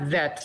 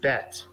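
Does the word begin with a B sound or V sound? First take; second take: V sound; B sound. First: The word begins with a V sound. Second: The word begins with a B sound. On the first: The speaker calls it wrong. "Not vet, not the V sound" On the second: The speaker calls it right. "but the B sound"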